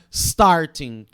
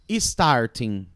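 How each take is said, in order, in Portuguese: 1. A palavra começa diretamente com o som do S. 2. Uma vogal i extra vem antes do S. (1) "Você tem que começar no som do S" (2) "Tá sentindo um som de i que eu coloco antes?"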